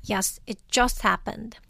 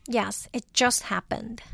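The two takes are said the same way.

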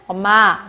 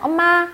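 First: The word is said with a lowered pitch. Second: The word is said with a raised pitch.

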